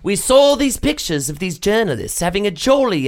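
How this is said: It is read in a put-on British accent.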